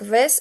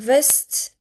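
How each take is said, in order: First: The final t sound is dropped. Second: The final t sound is pronounced. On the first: The speaker calls it wrong. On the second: The speaker calls it right.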